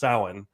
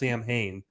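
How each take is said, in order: First: The name is not read as spelled. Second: The name is read as spelled, 'Sam Hain'. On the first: The speaker calls it right. "It's pronounced Samhain" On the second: The speaker calls it wrong. "They pronounce it wrong. He says Sam Hain"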